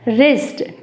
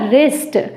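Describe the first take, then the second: First: The word begins with an r sound. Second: The same.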